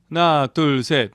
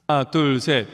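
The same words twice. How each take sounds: First: The voice is completely dry with no reverb. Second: The dry voice is blended with some reverb. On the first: "리버브가 하나도 안 걸려 있죠" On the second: "자연스러운 소리를"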